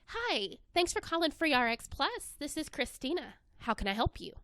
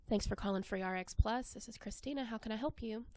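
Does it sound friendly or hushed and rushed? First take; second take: friendly; hushed and rushed. First: It is said in a warm, friendly tone. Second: It is said quietly and quickly, without warmth.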